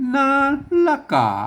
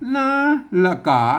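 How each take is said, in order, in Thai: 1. ตัดสระกลางออก เหลือสองพยางค์ 2. ตัดสระกลางออก เหลือสองพยางค์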